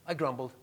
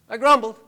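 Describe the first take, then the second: First: Said in the usual way. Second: Loud, emphatic "I grumbled". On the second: Real, not acted. Pastor loudly confessing his grumbling to the church. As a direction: hammer home the confession.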